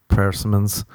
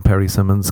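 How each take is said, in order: First: Said in the usual way. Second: "Perry Simmons" said as first name and surname; persimmons as a name. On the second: Shown as a demonstration. Podcaster renames the fruit, saying "Perry Simmons" as a name. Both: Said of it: "I prefer to call them Perry Simmons".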